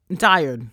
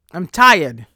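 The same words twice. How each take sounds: First: Said in the usual way. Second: "tired" said much louder, fed up; "I'm tired" belted out in exasperation; exasperated, much louder. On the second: Real, not acted.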